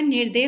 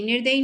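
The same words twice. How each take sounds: First: निर्दय ending without ee; correct form. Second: Loud निर्दयी ending in -yi; wrong form. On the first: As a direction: finish निर्दय on a short -day. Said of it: "निर्दय होता है". (निर्दय, अंत में बिना ई के) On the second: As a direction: sound a final ee in निर्दयी, loudly. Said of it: "निर्दयी नहीं होता है". (निर्दयी, ज़ोर से, अंत में ई) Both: Shown as a demonstration.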